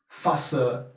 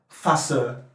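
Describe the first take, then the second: First: It is said in a Cockney accent. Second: It is said in a Cockney accent.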